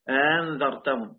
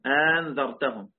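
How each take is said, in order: Both takes have the same delivery.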